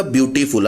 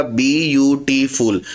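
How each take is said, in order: First: Said in the usual way. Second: ब्यूटीफुल said very slowly, syllable by syllable; slow syllable split. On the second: Shown as a demonstration. Teacher showing students the syllables of ब्यूटीफुल, slowly. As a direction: stretch out ब्यूटीफुल so each syllable stands apart. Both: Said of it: "ब्यूटीफुल को जब आप pronounce करेंगे तो कैसे चलेगा".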